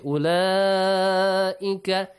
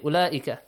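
First: The middle vowel is held long. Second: The middle vowel is cut short. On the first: The speaker calls it right. "You should say" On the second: The speaker calls it wrong. "You should not say"

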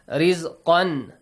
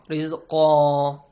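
First: The word ends with an n sound. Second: The word ends with a long vowel. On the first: The reading continues past the word. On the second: The reading stops at the word.

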